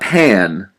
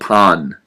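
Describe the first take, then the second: First: It is said with an English pronunciation. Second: It is said with a Japanese pronunciation. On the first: It is the English word for a frying pan. The speaker calls it wrong. "not pan. Like, hey, pass me the frying pan" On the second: It is the Japanese word for bread. The speaker calls it right. "Bread in Japan is called pan"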